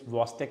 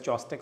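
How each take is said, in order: First: The word begins with a v sound. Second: The word begins with a ch sound. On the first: "C generally is silent there. C, H is silent. The usual pronunciation is Vostek sign" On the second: "Let us Indianize it and call it as Chostek sign. Absolutely fine"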